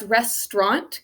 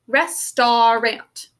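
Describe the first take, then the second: First: The word is said with two syllables. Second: The word is said with three syllables. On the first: This is how the word is normally said. "kind of a two-syllable word" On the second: This way matches the spelling of the word. "three syllables"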